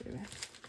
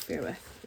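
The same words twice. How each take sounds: First: Breathy whisper under the breath; whispered aside. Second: Said in the usual way. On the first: Real, not acted. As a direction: mutter it almost silently. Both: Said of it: "repeated as a quiet aside".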